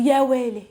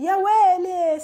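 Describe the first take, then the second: First: Said in the usual way. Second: High, dramatized exclamation of shock. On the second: Shown as a demonstration. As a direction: cry it out high, as if something happened.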